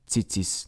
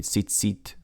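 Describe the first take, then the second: First: The word ends with an s sound. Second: The word ends with a t sound.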